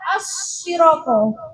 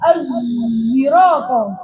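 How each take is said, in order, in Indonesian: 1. Konsonannya bunyi s biasa. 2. Konsonannya bercampur dengan bunyi z. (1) "As-siroko itu kan pakai short" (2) "ismamnya itu dengan mencampur suara zaid"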